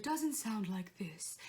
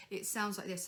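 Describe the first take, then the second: First: Wrong, un-boomy voice. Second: Dark, speechy chest resonance; boomy chest voice. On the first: Singing teacher shows students the wrong tone, un-boomy voice. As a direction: voice taken out of the chest, without boom. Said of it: "it doesn't sound like this". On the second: Singing teacher shows students the right tone, boomy chest voice. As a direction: let it boom from the chest. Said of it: "nice and boomy". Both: Shown as a demonstration.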